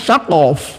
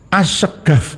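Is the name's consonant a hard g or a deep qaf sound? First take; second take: qaf; hard g. First: The name is said with a deep qaf sound. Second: The name is said with a hard g sound. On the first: This is the original form of the name. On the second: The original qaf sound has been replaced. "Kof diganti dengan G"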